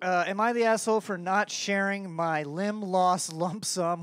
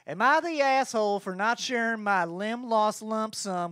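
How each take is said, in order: First: It is read in the speaker's normal accent. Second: It is read in a put-on accent. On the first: The speaker calls it wrong. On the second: The speaker calls it right.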